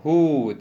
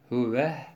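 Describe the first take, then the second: First: It is a single lengthened syllable hu. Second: It is two syllables with an added final h. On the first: This is the common way of pausing. "hu diye uzatırız" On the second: This is one reciter's variant reading. "Ama Yakup huve hiye diye okur"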